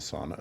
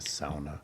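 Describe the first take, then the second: First: The first syllable sounds like 'saw'. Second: The first syllable sounds like 'sow', rhyming with 'cow'. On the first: The speaker calls it wrong. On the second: The speaker calls it right.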